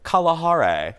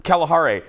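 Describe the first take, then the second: First: Kalahari with broad ah vowels, KAH-lah-HAH-ray; wrong Kalahari. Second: Kalahari with flat a as in cat, KAL-a-HAR-ay; correct Kalahari. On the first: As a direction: say Kalahari with open ah sounds throughout. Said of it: "Why the hell did you say it like that?". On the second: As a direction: say Kalahari the proper way, first a as in cat. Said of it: "the real name is the". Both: Shown as a demonstration.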